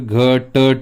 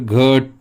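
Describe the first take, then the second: First: The first t sound has a full vowel. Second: The first t sound is left out entirely. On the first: "जर पूर्णपणे पकडला तर घट होईल" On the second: "हा जर सोडून दिला आपण तर घट होईल"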